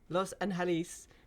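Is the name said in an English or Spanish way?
Spanish. The name is said with Spanish pronunciation. The speaker calls it right.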